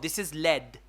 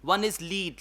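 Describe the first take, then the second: First: The vowel is short, like in 'bed'. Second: The vowel is long, like in 'seed'. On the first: It is the name of a metal. "Lead is a metal" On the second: It is the verb meaning to guide. "Lead is a verb"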